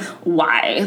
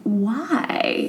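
First: The word sounds sarcastic and snarky. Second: The word sounds curious and full of wonder. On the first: The asker is doubting or mocking. The speaker calls it wrong. "it's almost like a sarcastic, like, snark" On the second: The asker genuinely wants to understand. The speaker calls it right. "that childlike wonder and curiosity of, like, why? Like, truly why?"

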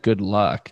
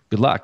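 First: It is said sarcastically, not meaning it. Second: It is said sincerely, warmly meaning it.

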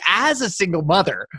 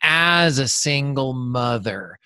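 First: It is said in a bright, excited tone. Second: It is said in a flat, defeated tone. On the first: The situation is a source of pride and strength. "your face completely lit up" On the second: The situation is a misfortune that happened to them. "You could say like, well, this happened to me"

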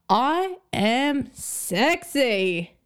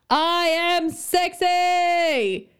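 First: It is said at normal loudness. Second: It is said louder.

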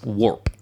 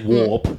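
First: The R sound after the vowel is strongly pronounced. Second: The R sound after the vowel is dropped. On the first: This is an exaggerated pronunciation meant for the listener. "I want you to say it properly, so it's warp" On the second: This is the speaker's natural Australian pronunciation. "I don't pronounce my R. So I would say warp"

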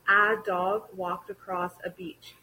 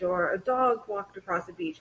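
First: The opening 'a' is said loud and clear. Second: The opening 'a' is quiet and slurred. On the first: The speaker calls it right. "Native English speakers will emphasize the a" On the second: The speaker calls it wrong. "slur it, be quiet with it"

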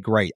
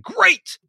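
First: It is said flatly, without energy. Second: It is said loudly with high energy.

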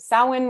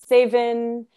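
First: The word is pronounced the Irish way. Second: The word is pronounced the Scottish way. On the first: "Samhain would be the Irish way of saying it" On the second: "in Scotland"

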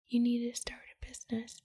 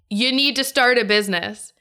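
First: It is said quietly, like a soft inner voice. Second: It is said very loudly and forcefully. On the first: The inner voice is only a gentle nudge. "like that" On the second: The inner voice is demanding to be heard. "it got way louder"

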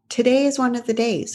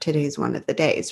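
First: The voice sounds light and upbeat. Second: The voice sounds heavy and reluctant. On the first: The day is welcomed as a chance to try. The speaker calls it right. "oh, ... Okay, we're going to give it a try today" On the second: The day is dreaded as a burden. The speaker calls it wrong.

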